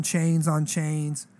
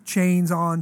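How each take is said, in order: First: Slow, stretched "chains on chains". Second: Said in the usual way. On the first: Retold or imitated. Describing the guy's chains.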